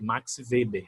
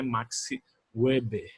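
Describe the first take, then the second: First: Weber begins with a V sound. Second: Weber begins with a W sound. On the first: The speaker calls it right. "som de V" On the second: The speaker calls it wrong. "não é Max Weber"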